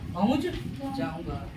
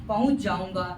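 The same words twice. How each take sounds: First: Each word is said carefully and separately. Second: The words run together quickly, sounds merging. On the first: "जब हम संभाल संभाल करके बोलते हैं" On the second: "जल्दबाजी में जल्दी से उच्चारण"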